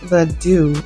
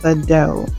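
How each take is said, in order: First: The name ends with an 'oo' vowel. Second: The name ends with an 'oh' vowel. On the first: The speaker calls it right. "It actually is pronounced the do" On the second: The speaker calls it wrong. "not the dough"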